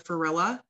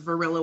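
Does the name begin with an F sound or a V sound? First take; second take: F sound; V sound. First: The name begins with an F sound. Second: The name begins with a V sound. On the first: A child who could not pronounce V said it. The speaker calls it wrong. "I used to say F for V, so I called her Farilla" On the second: This is the name's real pronunciation. The speaker calls it right. "her name was Varilla with a V"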